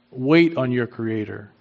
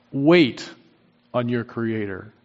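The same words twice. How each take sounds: First: Said in the usual way. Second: Wait set apart, a pause before on your creator; emphatic pause after Wait. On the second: Shown as a demonstration. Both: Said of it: "the emphasis is on this".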